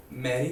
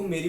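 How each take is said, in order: First: Said in the usual way. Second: "मेरी" with a closed ay vowel; Mary as Meri. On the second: Shown as a demonstration. Father's slip on nurse's name, "मेरी" with ay vowel. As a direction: say "मेरी" like Hindi "mine", not open ae as in Mary. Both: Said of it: "पापा मैरी को मेरी बोलते बोलते".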